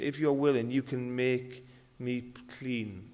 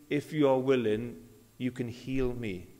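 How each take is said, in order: First: If you are willing, you can make me clean said slowly, leaning on you; slow, weighted words. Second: Said in the usual way. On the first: Shown as a demonstration. Preacher repeating the leper's plea slowly, stressing you. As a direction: draw it out slowly, pressing on you. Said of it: "He said". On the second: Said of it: "He didn't say".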